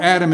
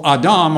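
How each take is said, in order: First: "Adam" as AD-um, stress on first syllable; usual English pronunciation. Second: "Adam" as ah-DAHM, stress on second syllable; Hebrew pronunciation. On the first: Preacher giving both names of the creature, "Adam" in English, AD-um. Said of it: "We usually pronounce it Adam". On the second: Preacher giving both names of the creature, "Adam" in Hebrew, ah-DAHM. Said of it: "would be pronounced more like". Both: Shown as a demonstration.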